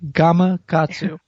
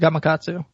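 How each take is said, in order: First: The name is said slowly and carefully. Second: The name is said at normal conversational speed.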